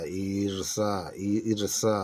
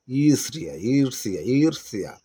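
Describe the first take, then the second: First: ईर्षा said slowly without the ya sound, irsha; teacher gives the incorrect ईर्षा; wrong form. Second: Teacher repeats the right ईर्ष्या; correct form. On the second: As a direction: stress the ya in ईर्ष्या, irshya. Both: Shown as a demonstration. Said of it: "शुद्ध वर्तनी शब्द वाला शब्द ईर्ष्या".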